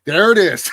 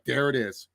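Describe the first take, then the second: First: Loud, higher mock exclamation; gleeful callout. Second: Quieter mock-resigned callout; understated reaction. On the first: Host quoting the line that set Woods off, loud callout. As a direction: call it out like you caught someone out. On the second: Host acting out how he would react, understated. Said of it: "that's how I would react if someone said".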